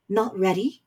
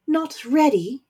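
First: Said in the usual way. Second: Higher, louder incredulous echo; rising voice. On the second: Acted. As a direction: throw the words back, indignant. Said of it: "voice began to rise".

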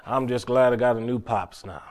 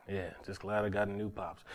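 First: Said in the usual way. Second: Softer, murmured to himself; a soft, private echo of the line; quiet repeat. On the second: Real, not acted. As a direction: let it fall away to a hush.

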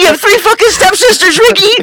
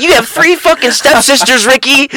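First: Very high, louder mock shriek; retold screaming freak-out. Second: High-pitched imitation of an angry woman; mock a woman freaking out, pitched way up; retold freak-out. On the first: Friend repeats the woman's outburst at Ricky, shrieked higher in mock fury. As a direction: escalate into a screechy imitation, cracking into laughter at the end. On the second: Friend retells a woman confronting Ricky, high mock outrage. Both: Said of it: "she was freaking the fuck out".

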